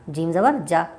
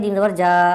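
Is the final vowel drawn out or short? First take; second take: short; drawn out. First: The final vowel is short and quick. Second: The final vowel is stretched out long. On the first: The speaker calls it right. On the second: The speaker calls it wrong.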